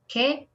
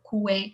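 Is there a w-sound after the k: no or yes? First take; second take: no; yes. First: The k goes straight into the vowel. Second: A w-sound follows the k before the vowel. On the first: The speaker calls it right. "we say que or ki. Always" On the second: The speaker calls it wrong. "we never no never say"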